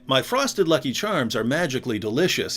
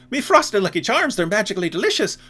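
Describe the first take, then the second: First: It is said in an American accent. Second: It is said in an Irish accent.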